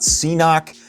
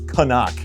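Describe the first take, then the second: First: It is said as 'see-knock'. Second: It is said as 'ca-nuck'. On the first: The speaker calls it wrong. "It is not C-Knock" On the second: The speaker calls it right. "It is Canuck"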